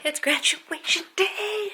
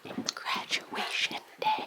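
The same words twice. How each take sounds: First: High, slow sing-song; drawn out; excited announcement. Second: High, slow breathy whisper. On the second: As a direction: whisper it softly. Whispered wake-up call. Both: Acted.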